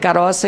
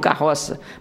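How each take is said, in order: First: It is said the Italian-descendant gringo way. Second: It is said the standard regional way. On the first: "Vai dizer caroça" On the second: "e não carroça"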